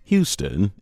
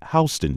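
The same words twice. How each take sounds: First: It is pronounced like the Texas city's name. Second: It is pronounced unlike the Texas city's name. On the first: It names the city in Texas. The speaker calls it wrong. "Houston is a big city in the state of Texas" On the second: It names the street in New York City. The speaker calls it right. "Pronounce it Houston Street"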